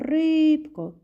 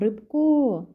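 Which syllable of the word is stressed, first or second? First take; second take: first; second. First: The stress is on the first syllable. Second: The stress is on the second syllable. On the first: The speaker calls it right. "ми кажемо рибко, кличемо її. Також буде наголос ставитись на першому складі" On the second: The speaker calls it wrong. "Ми ж не кажемо рибко"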